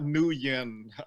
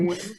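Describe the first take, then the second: First: The name is said as two syllables, new-yen. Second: The name is said as one syllable, like win. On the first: The speaker calls it wrong. "not New Yen" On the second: The speaker calls it right. "Win is the right way to say"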